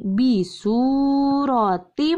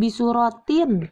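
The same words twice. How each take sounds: First: "bisurotim" slow, ending on a merged m; correct merged reading. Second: "bisurotin" with a clear n at the end, the incorrect way; wrong reading. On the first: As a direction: show the right way by gliding into m. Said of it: "tapi bisurotim langsung masuk". (cara baca benar: "bisurotim" lebur ke mim) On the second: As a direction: show the mistake by ending on n. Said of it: "jangan bisurotin". (cara baca salah: "bisurotin" dengan bunyi n) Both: Shown as a demonstration.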